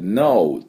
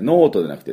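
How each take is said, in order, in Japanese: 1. 英語の発音で言われています。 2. 日本のカタカナ発音で言われています。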